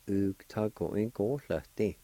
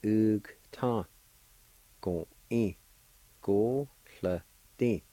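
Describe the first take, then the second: First: Said in the usual way. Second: Ug, ta, go, in, go, sl, ti, all separated by pauses; syllable by syllable. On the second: Shown as a demonstration. Teacher giving flaxseed all together, syllable by syllable. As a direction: sound out each syllable from ug to ti. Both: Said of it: "And all together".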